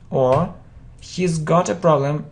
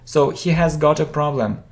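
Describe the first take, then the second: First: 'He has' is shortened to one syllable. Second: 'He has' is said as two full words.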